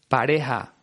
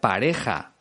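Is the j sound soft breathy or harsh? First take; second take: soft breathy; harsh. First: The j is a soft breathy h, Caribbean-style. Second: The j is a harsh throaty sound.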